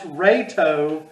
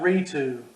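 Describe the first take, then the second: First: The first vowel sounds like 'ray'. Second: The first vowel sounds like 'ree'. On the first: The speaker calls it right. "It's also pronounced Rayto" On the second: The speaker calls it wrong. "not Ritu"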